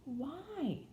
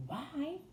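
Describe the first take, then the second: First: High, cool little question; coldly. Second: High, echoed Yorkshire question; echoing. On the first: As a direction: ask it high-pitched, with little warmth. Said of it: "Mary coldly". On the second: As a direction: throw the question back, pitched high. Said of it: "echoed Martha". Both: A narrator's reading.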